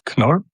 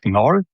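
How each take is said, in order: First: The initial K sound is clearly pronounced. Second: The initial K sound is left silent. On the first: This is how German speakers say it. "in Germany or German speaking countries, we pronounce the letters as they are" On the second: This is how English speakers usually say it. "I know for English speaking, this is like Knorr"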